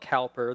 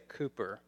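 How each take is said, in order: First: The first vowel sounds like 'cow'. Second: The first vowel sounds like 'coo'. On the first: It is read as it is spelled. "We spell it Cowper" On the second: It is said the British way. "the Brits say Cooper"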